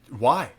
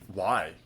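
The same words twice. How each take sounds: First: It sounds curious and open. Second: It sounds challenging, not curious.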